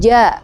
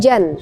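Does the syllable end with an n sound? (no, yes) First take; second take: no; yes. First: The syllable ends on a vowel without n. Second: The syllable ends with an n sound. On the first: The speaker calls it right. "Jadi bacaannya ja" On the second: The speaker calls it wrong. "bukan jan"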